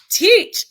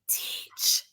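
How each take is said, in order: First: The word is said loudly and forcefully. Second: The word is said softly and gently.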